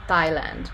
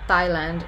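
Both takes have the same delivery.

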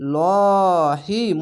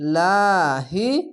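First: The 'l' is said heavy and thick. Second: The 'l' is said light and thin. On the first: "লহি মোটা করে হবে" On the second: "পাতলা করে হবে লাহি"

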